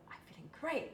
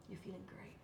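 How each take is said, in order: First: Forced cheer. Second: Said in the usual way. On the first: Retold or imitated. Her forced upbeat answer.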